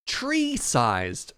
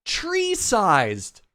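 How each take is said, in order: First: Said in the usual way. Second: High loud falling Tree-sized; loud exasperated. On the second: Shown as a demonstration. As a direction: shout Tree-sized in disbelief.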